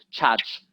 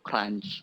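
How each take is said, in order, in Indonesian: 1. Diucapkan tanpa bunyi r dan n tambahan. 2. Diucapkan dengan bunyi r dan n tambahan. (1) "Oh, church" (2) "cara ngomongnya itu crunch"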